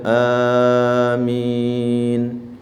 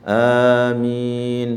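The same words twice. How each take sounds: First: The long vowel is held for three counts. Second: The long vowel is held for two counts. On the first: "boleh tiga harokat ya" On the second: "Mad badal boleh dua"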